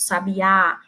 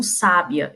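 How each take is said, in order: First: Sabiá stressed on the final Á; stress on last syllable. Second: Sábia stressed on SÁ, last syllable weak; stress on first syllable. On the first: Teacher contrasting accent positions, final Á stressed in sabiá. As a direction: land on the end of sabiá: sa-bi-Á. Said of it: "a questão da entonação". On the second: Teacher showing how an accent guides intonation, SÁ stressed in sábia. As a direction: say sábia with the beat up front: SÁ-bia. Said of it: "pronuncio a palavra como sábia". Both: Shown as a demonstration.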